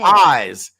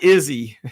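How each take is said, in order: First: The name is said as one syllable, like eyes. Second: The name is said as two syllables, like Izzy. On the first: The speaker calls it right. "Pronounced like eyes" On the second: The speaker calls it wrong. "not Izzy"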